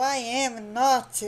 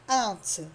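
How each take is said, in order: First: Each word is said fully and separately. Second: The words are merged into one short contraction. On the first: "é para você enfatizar, enfatizar muito" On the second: "que é a substituição do I am"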